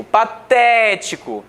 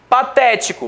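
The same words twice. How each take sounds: First: "patético" slowed right down on TÉ; stressed syllable. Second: Said in the usual way. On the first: Shown as a demonstration. Teacher pointing out the tonic syllable of "patético", stretched and stressed. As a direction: hold and lean on the "té" in "patético". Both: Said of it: "Por ser a mais forte".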